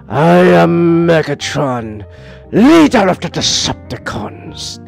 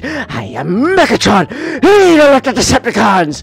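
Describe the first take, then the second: First: It is said in a deeper Megatron voice. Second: It is said in a higher Megatron voice.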